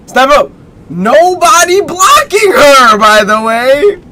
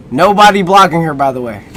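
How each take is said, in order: First: Mock announcer repeat. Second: Said in the usual way. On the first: Shown as a demonstration. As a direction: stretch it out like a hype call. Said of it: "first said plainly". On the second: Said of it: "repeats it drawn out".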